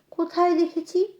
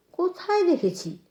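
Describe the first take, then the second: First: "কোথায় দেখেছি" higher, with a rise at the end; questioning rise. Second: "কোথায় দেখেছি" high and soft, falling at the end; musing fall. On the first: Trying to place a familiar face, "কোথায় দেখেছি" as a rising question. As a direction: wonder "কোথায় দেখেছি" on a high, rising tune. Narrator searches her memory. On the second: Still searching her memory, "কোথায় দেখেছি" soft with a falling end. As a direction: repeat "কোথায় দেখেছি" softly, letting it drop. Narrator repeats the question inwardly. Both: A narrator's reading.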